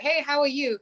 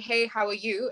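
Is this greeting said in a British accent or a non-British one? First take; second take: non-British; British. First: It is said in a switched, non-British accent. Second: It is said in a British English accent. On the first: "but then I'd go" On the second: "in a very normal English British accent"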